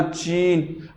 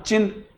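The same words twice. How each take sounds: First: चीन with a long, stretched ee; long vowel. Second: चिन with a brief, short i; short vowel. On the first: Teacher contrasting two vowel lengths for pupils, long vowel. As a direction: hold the ee in चीन, drawn out slowly. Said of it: "यहां sound ज्यादा होगा". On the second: Teacher contrasting two vowel lengths for pupils, short vowel. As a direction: keep the i in चिन short and quick. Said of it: "यहां sound कम होगा". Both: Shown as a demonstration.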